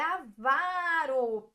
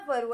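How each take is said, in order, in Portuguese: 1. A tônica está na segunda sílaba. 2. A tônica está na primeira sílaba. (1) "é avaro, paroxítona" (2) "não é ávaro"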